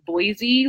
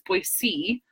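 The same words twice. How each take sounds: First: The final syllable does not sound like 'see'. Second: The final syllable sounds like the letter C. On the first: The speaker is not from the area. The speaker calls it wrong. "is how I always used to say it" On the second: The speaker uses the local pronunciation. The speaker calls it right. "like C, like the letter C"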